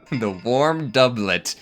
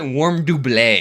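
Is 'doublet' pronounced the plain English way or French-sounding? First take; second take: English; French. First: Doublet is said the plain English way. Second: Doublet is said with a French-sounding pronunciation. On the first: The speaker calls it right. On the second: The speaker calls it wrong.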